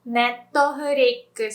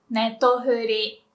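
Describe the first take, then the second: First: Netflix as nettofurikkusu; full Japanese pronunciation. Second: Netflix as nettofuri, stopping at ri; short Japanese form. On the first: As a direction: sound out Netflix with final ku-su. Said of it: "we say". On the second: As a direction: slowly model shortened Netflix, net-to-fu-ri. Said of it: "we like everything shorter". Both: Shown as a demonstration.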